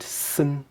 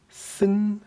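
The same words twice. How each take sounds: First: The tone does not rise at the end. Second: The tone rises toward the end. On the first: It means club. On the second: It means bird.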